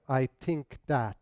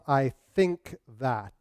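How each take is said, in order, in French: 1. Les sons th deviennent t et d. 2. Les sons th se prononcent avec la langue entre les dents. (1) "remplacer the par te, de ... Du moins ici au Québec" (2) "les consonnes T H"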